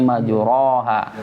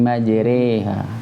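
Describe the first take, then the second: First: The vowel after r is a plain open a. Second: The vowel after r is tilted toward e. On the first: The speaker calls it wrong. "tidak lagi cara bacanya majroha" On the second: The speaker calls it right. "tapi majreha"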